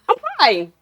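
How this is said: It is said in a bright, happy tone.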